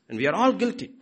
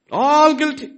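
First: Said in the usual way. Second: All guilty shouted high and loud; emphatic shout. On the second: Real, not acted. Preacher driving home guilt, loud emphatic cry. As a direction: hit "All" hard and loud.

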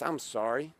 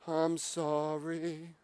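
First: Said in the usual way. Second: Very slow, droning, stretched-out sorry; mock apology. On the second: Man mocking his habit of constant apologizing, droning mock apology. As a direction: draw each syllable out on a held note.

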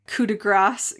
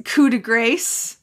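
First: "coup de grace" ending in GRAHSS; broad ah in "grace"; alternative pronunciation. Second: "coup de grace" ending like English GRACE; long ay in "grace"; playful mispronunciation. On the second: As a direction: say "coup de grace" as koo-duh-GRAYSS, slowly. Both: Shown as a demonstration. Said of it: "as it were".

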